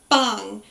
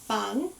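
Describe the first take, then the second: First: The B is said with a strong, percussive burst. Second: The B is said gently, without a strong burst. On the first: The speaker calls it wrong. "not um, percussive, like bang. You don't want that sort of" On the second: The speaker calls it right. "It's a very soft bang"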